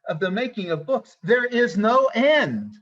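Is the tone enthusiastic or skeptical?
enthusiastic. It sounds enthusiastic and celebratory. Endless books are a wonderful thing. "These librarians were sp- trying to tell us, I'll give you a rendition"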